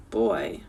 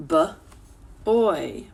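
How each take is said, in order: First: Said in the usual way. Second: "B-, oy" broken into two sounds; split sounds. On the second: Shown as a demonstration. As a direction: pull "B-, oy" apart. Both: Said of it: "making that ow sound".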